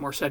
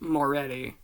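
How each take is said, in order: First: The name is said with the C sounded. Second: The name is said without the C sound. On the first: This pronunciation follows the spelling. "people pronounce it Morsetti because it's spelled that way" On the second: This is the intended pronunciation of the name. "it's supposed to be like it's pronounced Moretti"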